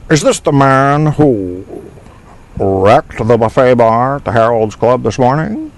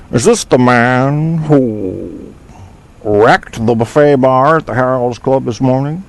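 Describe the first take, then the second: First: Slow drawn start in the film character's voice; movie character impression. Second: Slow, drawn-out movie character line; movie quote impression. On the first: Host repeats the movie quote for the chat in a light character voice. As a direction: say it just like him. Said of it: "I said it pretty much just like him". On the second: Host quotes a film line for a chat room quiz, slow character voice. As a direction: drag out the first words like the film character. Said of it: "name what movie that come".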